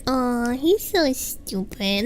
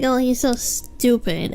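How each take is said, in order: First: It is said in a fond, affectionate tone. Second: It is said in a mean, insulting tone.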